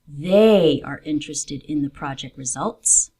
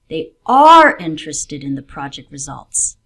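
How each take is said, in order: First: The word 'they' carries extra stress. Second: The word 'interested' carries extra stress. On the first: These people, not another group, are interested. "I want to emphasize a particular group of people" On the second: They really do want to know the outcome. "they do want to know what happens in the project"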